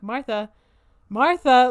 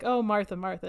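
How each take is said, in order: First: The name is called out to get attention. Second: The name is said softly, like a gentle sigh.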